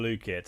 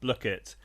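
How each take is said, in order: First: The first vowel is long, as in blue. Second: The first vowel is short, as in book. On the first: The speaker calls it wrong. "not blue" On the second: The speaker calls it right. "like book Blookit, not blue"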